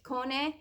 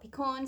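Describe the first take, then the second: First: The name is pronounced in the Italian way. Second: The name is pronounced in an English way. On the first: This is the original, proper pronunciation. "I think you're supposed to say it" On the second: This is how people say it now. "so I call it"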